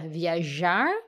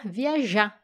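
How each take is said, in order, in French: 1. Le mot se termine par un son R audible. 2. Le R final disparaît ; la dernière syllabe est accentuée. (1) "au lieu de dire viajar" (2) "on va oublier qu'il y a les R et on va dire"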